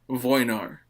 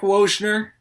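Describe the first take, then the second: First: The surname is said with a Polish-style pronunciation. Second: The surname is said with an English-style pronunciation. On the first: The speaker calls it right. "I think it's supposed to be pronounced Voinar" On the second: The speaker calls it wrong. "my way is technically wrong. It's like it's an anglicized version"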